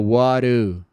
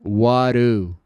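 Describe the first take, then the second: First: The d in 'do' sounds like a tapped r. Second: The d in 'do' sounds like a tapped r.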